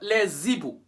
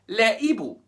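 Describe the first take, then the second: First: A linking z sound joins the article to the noun. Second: No linking sound joins the article to the noun. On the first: The speaker calls it wrong. "not les Ibu" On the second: The speaker calls it right. "Liaison is forbidden here"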